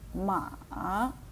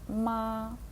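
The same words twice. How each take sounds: First: The pitch starts low, dips, then rises. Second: The pitch stays high and level throughout. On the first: "Третій тон – низький тон, що опускається вниз і починає підніматися вгору" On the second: "високо і рівно. Звук не піднімається і не опускається"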